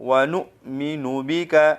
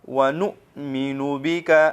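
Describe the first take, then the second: The two takes are said the same way.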